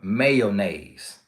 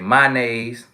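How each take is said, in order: First: It uses the standard English pronunciation. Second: It uses the speaker's home dialect pronunciation. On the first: The speaker calls it right. "instead of mayonnaise" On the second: The speaker calls it wrong. "We say mayonnaise"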